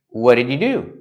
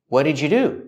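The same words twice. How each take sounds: First: The D is cut short before 'you'. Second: The D and Y blend into a J sound. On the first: "Or you can use a stop D" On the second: "you can make a J sound like in juice and jump"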